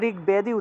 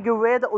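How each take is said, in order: First: A full b sound follows the g. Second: The b sound is dropped after the g. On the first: The speaker calls it right. "এটা ঋগ্বেদই উচ্চারণ হবে" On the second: The speaker calls it wrong. "ঋগ্বেদ উচ্চারণ হবে না"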